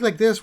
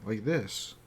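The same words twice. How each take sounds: First: It is spoken quickly and excitedly. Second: It is spoken slowly and deliberately. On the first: The character is excitable or small. "really fast and you know really excited" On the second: The character is thoughtful and intelligent. "you can speak a little bit slower"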